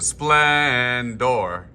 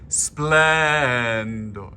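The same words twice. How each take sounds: First: Splendor with a hard R ending; the wrong way, splendor ending on a heavy R. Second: Splendor with an unaccented open ending; correct splendor. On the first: Choir director showing the ending to avoid. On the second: Choir director showing the unaccented ending, spoken. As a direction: say splendor with the last syllable light. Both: Shown as a demonstration. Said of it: "Instead of splendor".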